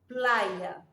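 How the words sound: The y is said the way Spain does.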